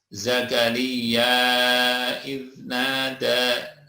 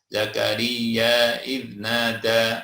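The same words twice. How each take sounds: First: The vowel before 'idnada' is held moderately long. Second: The vowel before 'idnada' is held briefly. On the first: "atau empat harokat dua alif" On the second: "Mad jaiz munfasil di sini boleh dibaca dua ya"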